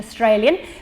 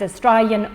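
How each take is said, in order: First: The vowels are said in a careful, prestigious way. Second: The vowels are said in a broad, casual way. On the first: "with very uh, prestigious pronunciation" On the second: "but this also gets realised"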